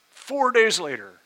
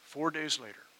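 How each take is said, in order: First: Four days later said again higher, louder and slower; emphatic repeat. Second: Said in the usual way. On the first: Shown as a demonstration. Pastor telling the church what came next, emphatic. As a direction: land four days later hard the second time.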